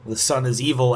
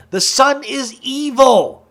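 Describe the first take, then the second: First: Said in the usual way. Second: High, loud, drawn-out mock cry; playful over-the-top outcry, pitched way up; mock proclamation. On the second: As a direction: proclaim it with hammed-up drama, slow and high. Mock proclamation, repeats then laughs.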